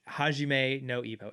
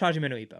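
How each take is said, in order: First: The title is said slowly and carefully. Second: The title is said very quickly. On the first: "say it a little bit slower" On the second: "say something super fast"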